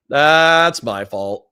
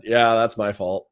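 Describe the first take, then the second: First: Slow and louder, "That's my fault" stretched out; drawn-out admission. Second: Said in the usual way. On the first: Shown as a demonstration. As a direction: lean on each word of "That's my fault", slowly.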